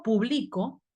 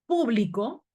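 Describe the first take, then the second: First: "publico" stressed on the middle, pu-BLI-co; stress on middle syllable. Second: "Público" stressed on the first syllable, PÚ-blico. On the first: Teacher contrasting the verb, "publico" stressed on BLI. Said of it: "Pero si yo digo publico, es un verbo". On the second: Teacher showing the esdrújula noun, "Público" stressed on PÚ. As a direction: hit PÚ in "Público", let the rest fall away. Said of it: "es esdrújula, lleva tilde en la U". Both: Shown as a demonstration.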